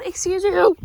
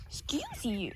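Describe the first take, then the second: First: Loud, high mock offense; sassy scolding. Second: Whispered mock offense. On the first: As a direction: tell off the rude hen. Chicken snubs her. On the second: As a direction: mutter it under your breath. Repeats under her breath. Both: Real, not acted.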